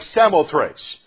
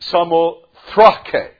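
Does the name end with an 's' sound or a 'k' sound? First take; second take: s sound; k sound. First: The name ends with an 's' sound. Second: The name ends with a 'k' sound. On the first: This is how the name looks when spelled. The speaker calls it wrong. "looks like Samothrace" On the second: This is how the name really sounds. The speaker calls it right. "and it's Samothrake"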